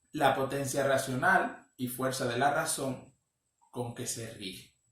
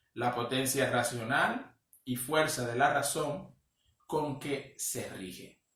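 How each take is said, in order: The two takes are said the same way.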